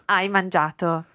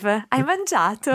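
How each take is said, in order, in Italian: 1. La voce scende alla fine. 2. La voce sale alla fine. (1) "As a statement" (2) "You tend to raise your voice slightly. Imagine you're drawing a question mark"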